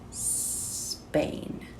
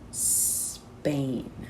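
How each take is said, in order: No difference in how they are said.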